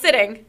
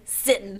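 First: Said in the usual way. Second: "sitting" said as sittin'; dropped g. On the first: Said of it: "it's written that way, not sitting". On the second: Shown as a demonstration. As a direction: end "sitting" on n, without the g. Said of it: "not sitting, sitting".

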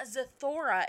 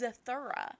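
First: "Zathura" said as za-THOR-a, with an "or" vowel; mimicked mispronunciation. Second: "Zathura" said as za-THUR-a, with an "ur" vowel; corrected pronunciation. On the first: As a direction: imitate the odd "Zathura" that rhymes with Thora. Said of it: "saying it weird?". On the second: Shown as a demonstration. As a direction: correct "Zathura" to a middle like "thur", not "thor". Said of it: "It's not Zathura".

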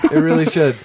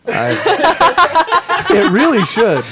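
First: Said in the usual way. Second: Laughing through the words. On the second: Real, not acted. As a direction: say it while still laughing.

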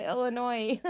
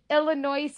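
First: Said in the usual way. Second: "Illinois" with the final s sounded; audible s ending on "Illinois"; weird pronunciation. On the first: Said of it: "instead of Illinois". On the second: Shown as a demonstration. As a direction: say "Illinois" to rhyme with noise. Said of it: "I just talk weird".

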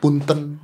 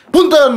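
First: Low, soft courteous word; gentle politeness. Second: Mock-angry, high-pitched burst; attempted angry politeness. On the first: Host shows the polite word said normally, gentle. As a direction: excuse yourself mildly. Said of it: "Tapi gimana mau emosi?". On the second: Host shows Punten sounds wrong angry, mock anger. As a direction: force anger into a polite word. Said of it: "nggak enak gitu loh". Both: Shown as a demonstration.

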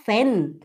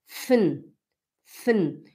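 First: "fen" with a clearly voiced E; wrong full vowel. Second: "fen" as a low fn, no vowel; correct swallowed E. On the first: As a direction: exaggerate the E in "fen". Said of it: "a gente não fala". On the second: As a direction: drop the E from "fen", just fn. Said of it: "A gente não pronuncia o E". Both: Shown as a demonstration.

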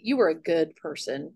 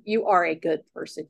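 First: Said in the usual way. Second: "are" stressed to correct "were". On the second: Real, not acted. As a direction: lean on the word "are".

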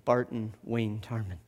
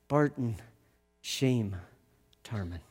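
First: Said in the usual way. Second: "Barton", "Shame", "Tarman" each alone, falling softer; slow revealing pauses. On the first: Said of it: "He told me your name is". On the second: Shown as a demonstration. The narrator reveals the cellar Bart's true name with slow pauses. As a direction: let each word land apart, fading. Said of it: "That your name is Shame".

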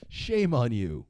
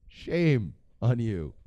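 First: Hammed-up reproach, said straight through; mock scolding. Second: Slow, stretched SHAME, pause, then "on you"; drawn-out mock scolding. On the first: Comedian chides disloyal ex-presidents, mock scolding. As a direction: scold them in one falling sweep. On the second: Comedian chides disloyal ex-presidents, slow mock scolding. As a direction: draw out the reproach word by word.

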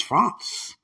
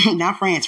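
First: "France" with a broad ah, "Frahnce"; fancy France. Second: "France" with the flat a of "pants"; everyday France. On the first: Teasing about sweetheart's French goods, affected "Frahnce". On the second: Teasing about sweetheart's French goods, rejecting plain "France". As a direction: say "France" the ordinary American way. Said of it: "My sweetheart had jeans on from France". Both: Shown as a demonstration.

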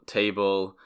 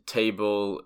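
The two takes are said the same way.

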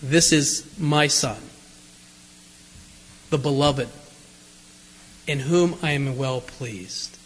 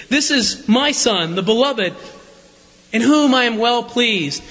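First: Low, slow, solemn voice from the cloud; voice of God. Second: Said in the usual way. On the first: Acted. Preacher voicing God from the cloud, low and slow. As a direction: boom it out slowly like God speaking from a cloud. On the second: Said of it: "what an affirmation".

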